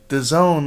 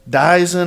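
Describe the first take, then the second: First: It sounds like the words the zone. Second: It sounds like the word Dyson. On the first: The speaker calls it right. "somebody said it was called the Zone" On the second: The speaker calls it wrong. "I didn't know how to pronounce it"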